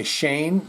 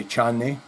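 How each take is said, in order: First: Said in the usual way. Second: Chane as chah-neh with a ch sound; Spanish-style name. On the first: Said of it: "they always say chane". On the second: Shown as a demonstration. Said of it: "I say Shane, they always say".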